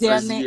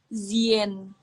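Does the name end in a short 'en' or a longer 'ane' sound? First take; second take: longer ane; short en. First: The name ends in a longer 'ane' sound. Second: The name ends in a short 'en' sound. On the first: The speaker calls it wrong. "Jadi bukan" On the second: The speaker calls it right. "ternyata baca awalnya itu Zien"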